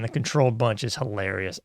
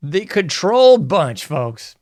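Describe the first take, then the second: First: Said in the usual way. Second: Louder, higher, slow announcement; showman announcement. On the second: Acted. Host introducing his favorite segment to viewers, slow, loud showman announcement. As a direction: announce it like a show title.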